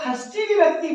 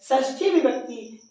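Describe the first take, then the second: First: The first word begins with a kh sound. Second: The first word begins with a sh sound. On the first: The speaker calls it wrong. "इसको कुछ लोग खष्टी विभक्ति पढ़ते हैं" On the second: The speaker calls it right. "वो षष्ठी पढ़ते हैं"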